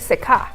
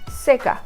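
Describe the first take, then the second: First: The stress is on the second syllable. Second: The stress is on the first syllable. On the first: The speaker calls it wrong. "We didn't say seca" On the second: The speaker calls it right. "this is the first one that we stressed"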